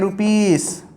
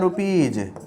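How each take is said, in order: First: The word ends with a hissing s sound. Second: The word ends with a buzzing z sound. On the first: The speaker calls it wrong. "ये हो जाएगा गलत" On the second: The speaker calls it right. "इसे कहा जाता है रुपीज"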